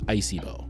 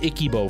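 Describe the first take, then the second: First: The second syllable sounds like 'sy'. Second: The second syllable sounds like 'ki'. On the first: This is the name's actual pronunciation. The speaker calls it right. "I didn't realize it was Icybo" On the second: This is how the name was mistakenly said for years. The speaker calls it wrong. "I've called them Ikibo for years"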